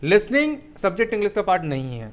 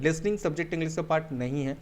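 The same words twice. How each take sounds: First: listening lifted and punched, falling close; first, emphatic take on listening; stress on listening. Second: listening said again quieter, settling; a gentle confirming echo; softer repeat. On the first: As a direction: lead with listening firmly. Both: Shown as a demonstration. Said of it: "Yes, my dear friend".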